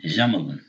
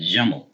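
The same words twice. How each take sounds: First: "Jamalun" with -un added at the end; low-pitched "Jamalun", sounding the final -un; tanween ending. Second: "Jamel" in two syllables, no -un; low-pitched "Jamel", ending on the l. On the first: Pointing out the tanween to learners, ending voiced. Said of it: "we have the tanween". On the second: Showing learners the syllable count, two syllables. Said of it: "Two syllables". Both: Shown as a demonstration.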